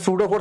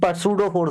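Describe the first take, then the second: First: The initial p is silent. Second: The initial p is pronounced. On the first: "सूडोफोर्स नहीं" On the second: "पसूडोफोर्स बोलता हूँ"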